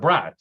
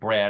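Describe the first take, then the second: First: The word ends with a T sound. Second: The word ends with a D sound. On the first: This is how people in one city said the name. "In Cleveland, we called it the Brat" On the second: This is how most people said the name. "Everybody pronounced it Brad"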